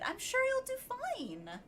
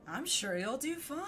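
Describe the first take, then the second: First: It is said in a peppy, cheerful tone. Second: It is said in a sarcastic tone.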